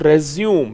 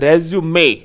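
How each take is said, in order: First: The word ends on a consonant sound. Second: The word ends on a vowel sound. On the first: The speaker calls it wrong. "It is not रेज्यूम" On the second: The speaker calls it right. "It is रेज्यूमे"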